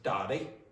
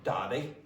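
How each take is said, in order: First: It is said with a Northern Irish accent. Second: The same.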